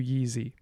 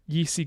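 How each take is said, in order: First: The middle consonant is voiced. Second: The middle consonant is voiceless.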